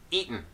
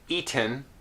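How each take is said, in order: First: An unreleased T runs straight into the N. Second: A vowel is heard between the T and N. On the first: The speaker calls it right. "the vowel disappears and we're left again with the same sound here with the unreleased T followed by N" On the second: The speaker calls it wrong. "I would not say eaten"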